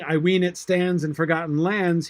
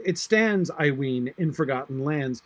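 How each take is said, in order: First: "ween" given a falling stress; poetry reading, "I ween" first; reordered line. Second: "It stands, I ween" broken by pauses; original inversion. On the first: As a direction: read it with the original word order. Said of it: "Instead of saying". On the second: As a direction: read it with the inversion set off. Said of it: "he says". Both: Shown as a demonstration.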